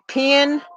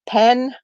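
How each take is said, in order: First: The vowel sounds like the vowel in 'pin'. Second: The vowel sounds like the vowel in 'pen'. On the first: This is the Southern way of saying it. "people in the South say pen, like P I N" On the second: This is the Northern way of saying it. "you're supposed to pronounce pen pen"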